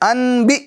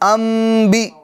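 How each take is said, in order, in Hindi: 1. b से पहले की नासिका ध्वनि n जैसी सुनाई देती है। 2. b से पहले की नासिका ध्वनि m जैसी सुनाई देती है। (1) "ऐसा नहीं" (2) "नून साकिन की आवाज को मीम से बदल देंगे"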